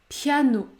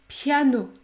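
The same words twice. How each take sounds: No difference in how they are said.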